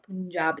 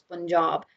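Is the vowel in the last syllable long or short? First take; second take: short; long. First: The last syllable has a short vowel. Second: The last syllable has a long vowel. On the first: The speaker calls it wrong. "pronouncing it as it's spelt" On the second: The speaker calls it right. "there is a silent R in Job"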